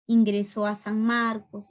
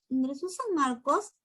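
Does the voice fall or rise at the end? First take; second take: fall; rise. First: The pitch falls at the end. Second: The pitch rises at the end. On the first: It states a fact. "la inflexión es descendente, como en los dos primeros" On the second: It asks a yes-or-no question. "o es ascendente"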